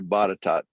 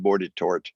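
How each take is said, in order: First: The first syllable has no r sound. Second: The first syllable has an r sound. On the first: The speaker calls it right. "They don't know how to say Botetourt" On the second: The speaker calls it wrong. "They call it Bordetort"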